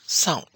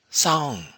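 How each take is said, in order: First: The vowel is cut short and abrupt. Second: The vowel is said with a high tone. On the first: To wait. "short tone" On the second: The Burmese harp. "high tone"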